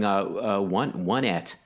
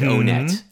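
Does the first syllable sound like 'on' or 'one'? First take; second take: one; on. First: The first syllable sounds like the word 'one'. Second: The first syllable does not sound like 'one'. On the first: "there's a strong argument for going one et" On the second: "were I pronouncing it before playing Earthbound, I would have said Onet"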